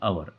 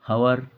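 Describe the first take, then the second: First: The word starts with a vowel, h silent. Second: The word starts with a pronounced h sound. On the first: The speaker calls it right. "इसमें H silent होता है" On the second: The speaker calls it wrong. "हावर नहीं बोलेंगे"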